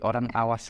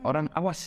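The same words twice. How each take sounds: First: The word awas is said with flat pitch. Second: The word awas is said with exclamatory pitch. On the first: The speaker calls it right. "dengan nada yang flat" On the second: The speaker calls it wrong.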